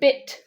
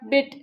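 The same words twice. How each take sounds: First: The final t sound is clearly pronounced. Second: The final t sound is weak or missing. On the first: The speaker calls it right. "you have to say bit, t. Make that t sound" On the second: The speaker calls it wrong. "like you're saying bit"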